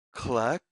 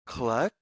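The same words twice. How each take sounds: The two takes are said the same way.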